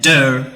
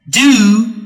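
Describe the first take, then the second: First: The word is said with a reduced vowel. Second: The word is said with a full vowel. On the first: "der or do for the weak form" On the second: "for the strong form"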